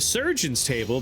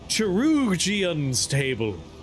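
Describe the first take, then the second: First: The word starts with an 's' sound. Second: The word starts with a 'k' sound.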